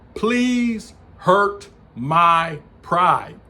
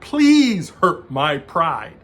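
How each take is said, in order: First: It is said very slowly. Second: It is said at a normal pace.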